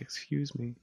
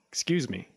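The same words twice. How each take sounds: First: It is said gently and politely. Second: It is said loudly and impatiently. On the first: The speaker is in a good mood and patient. "if I was having a better day, I might have been like" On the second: The speaker has no patience left. "I had like no patience for it that day. So I was like"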